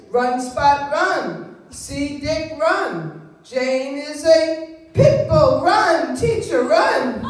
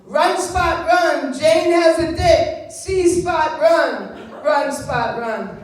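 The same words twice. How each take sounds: First: Loud, slow sing-song primer read. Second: Loud, slow sing-song primer read; mock reading of a modern primer. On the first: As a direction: read it like a first-grade reader. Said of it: "I taught him to read like this". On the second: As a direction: chant it like a kids' reader. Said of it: "what the books would say today". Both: Shown as a demonstration.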